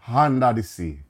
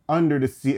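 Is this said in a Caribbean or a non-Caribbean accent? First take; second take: Caribbean; non-Caribbean. First: It is said with a Caribbean accent. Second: It is said without a Caribbean accent. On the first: The speaker calls it right. "instead of under the sea" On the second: The speaker calls it wrong. "you pick someone that said under the sea"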